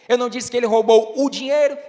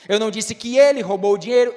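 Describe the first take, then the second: First: The word dinheiro is stressed. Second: The word ele is stressed. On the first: He took something other than the money. "então o que foi que ele roubou?" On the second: Someone else took the money. "então quem foi que roubou?"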